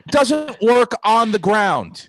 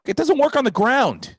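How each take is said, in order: First: Slow, loud, high drawn-out "doesn't"; drawn-out yell. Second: High, loud exasperated shout; exasperated yell. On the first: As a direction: stretch every word out, louder. Repeats punchline slower for effect. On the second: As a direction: throw the line at her fast. Ranting line, then repeated. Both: Retold or imitated.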